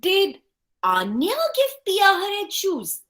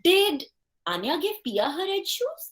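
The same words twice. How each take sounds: First: The stress is on the word Anya. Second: The stress is on the word did.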